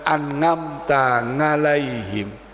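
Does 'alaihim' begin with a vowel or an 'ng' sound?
ng sound. The word 'alaihim' begins with an 'ng' sound. "Beliau bilang ... Pakai ngain, tidak bisa ain. Dia Jawa medok"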